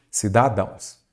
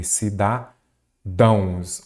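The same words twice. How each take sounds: First: Said in the usual way. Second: "Cidadãos" very slow, cida... dãos; split, correct plural. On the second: Shown as a demonstration. Teacher giving the correct plural, "Cidadãos" slowly broken up. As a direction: stretch "Cidadãos" in parts, landing on -dãos. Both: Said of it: "Então eu falo o quê?".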